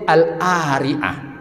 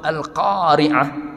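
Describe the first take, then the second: First: The qaf is dropped, leaving only the vowel. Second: The qaf is pronounced as a deep q sound. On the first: The speaker calls it wrong. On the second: The speaker calls it right.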